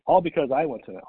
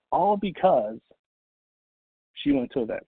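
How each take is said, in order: First: "I" punched in a quick line; quicker line, leaning on "I"; stress on I. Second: "she" lifted high after a pause; pause, then hit "she" high; stress on she. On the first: Speaker crediting his own event attendance, stressing "I". Contrasts I with she. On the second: Speaker crediting her success to an event, stressing "she". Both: Real, not acted.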